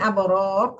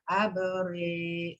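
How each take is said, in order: First: It is read with a plain a and thick ra. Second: It is read with a leaning e and thin ra. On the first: "kalau dibaca fathah kan tebal tuh" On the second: "kalau dibacanya imalah, aberi, aberi, aberi, tipis"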